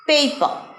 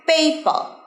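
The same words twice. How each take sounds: Both takes have the same delivery.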